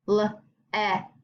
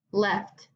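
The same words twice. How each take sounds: First: "left" split at the vowel; left sounded out. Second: Said in the usual way. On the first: Shown as a demonstration. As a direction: break "left" into separate sounds, slowly. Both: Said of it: "think about the sound that the vowel makes".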